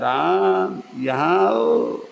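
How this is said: It is said with a twisted, winding tone.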